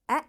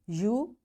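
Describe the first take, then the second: First: The vowel is given its short sound. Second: The vowel is given its long sound.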